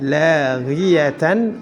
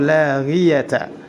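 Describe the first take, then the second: First: The word ends in tan. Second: The word ends in ta. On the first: "Tidak boleh dibaca" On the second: "Tidak boleh dibaca"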